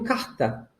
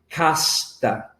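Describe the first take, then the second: First: The s before the t is swallowed, aspirated. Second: The s before the t is clearly pronounced. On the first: "eu engulo um pouquinho" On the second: "com essa S"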